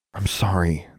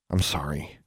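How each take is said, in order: First: Understated, earnest apology; mean it this time; sincere apology. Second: Low, soft, reluctant apology; half-meant apology. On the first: Alexandra apologizes to the twins, sincere. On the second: Alexandra apologizes to the offended twins, half-meant. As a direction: mumble a grudging sorry. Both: A narrator's reading. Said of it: "and this time she meant it".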